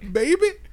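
It is said in an imitated mother's voice. "you gotta do the my baby wouldn't hurt nobody voice"

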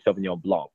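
It is said the American way, final C pronounced.

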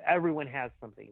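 It sounds dismissive and brushed off. Everyone's troubles are ordinary and not worth dwelling on. The speaker calls it wrong. "I'm not saying it that way"

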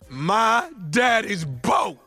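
It is said with strong feeling.

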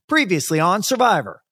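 There is little pause before Survivor.

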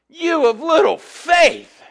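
It sounds harsh and condemning.

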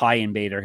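The name is said with a Brazilian accent.

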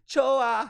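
It is said as a statement, falling.

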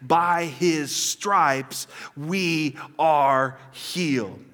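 It is said with bold, confident conviction. Said in faith, claiming it as true. The speaker calls it right. "Or we can say in faith and take it and say"

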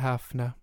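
The word has a soft, breathy throat sound. Italian influence has softened the sound. "because of, like, the romantic influence, yeah, it's more ... It's a little more breathy"

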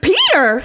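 It is said in a very happy voice.

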